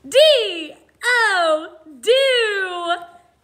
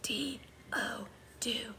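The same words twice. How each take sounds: First: It is spoken in an energetic, excited voice. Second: It is spoken in a soft whisper. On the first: "like we're really excited about it" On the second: "Now let's whisper spell it"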